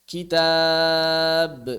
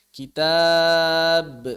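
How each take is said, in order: Both takes have the same delivery.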